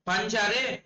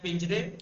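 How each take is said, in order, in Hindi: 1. पहला स्वर 'a' जैसा बोला जाता है। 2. पहला स्वर 'i' जैसा बोला जाता है।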